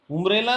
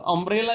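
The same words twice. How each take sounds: First: उम्ब्रेला said with a u sound at the start, उम; wrong pronunciation. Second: अम्ब्रेला said with a short अ sound at the start; correct pronunciation. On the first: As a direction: begin उम्ब्रेला with उ as the wrong example. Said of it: "उम्ब्रेला नहीं हुआ". (उम्ब्रेला, गलत उच्चारण उ से) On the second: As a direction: begin अम्ब्रेला with a short अ, the right way. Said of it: "अम्ब्रेला use हुआ". (अम्ब्रेला, सही उच्चारण अ से) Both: Shown as a demonstration.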